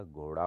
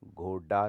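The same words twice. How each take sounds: First: Said in the usual way. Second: घोड़ा said as ghoda with stopped d; no flap in घोड़ा; hard d. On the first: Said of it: "होता है". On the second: Shown as a demonstration. Teacher shows the error, घोड़ा with hard ड. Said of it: "नहीं होता".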